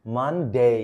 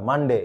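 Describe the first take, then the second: First: "মানডে" as "MUN... DAY"; correct English pronunciation. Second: "মানডে" with short "de"; common mispronunciation. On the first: Teacher showing where "day" comes, "মানডে" carefully pronounced with full ending. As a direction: split "মানডে" and hold a gliding "day". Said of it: "এই যে ডে আসবে". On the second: Teacher giving the form to reject, "মানডে" mispronounced with short "de". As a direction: say "মানডে" quickly, no glide on "ডে". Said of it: "না". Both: Shown as a demonstration.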